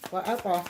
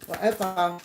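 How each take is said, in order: Both takes have the same delivery.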